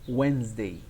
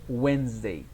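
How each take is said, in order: First: One written consonant in the middle is silent. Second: One written consonant in the middle is silent.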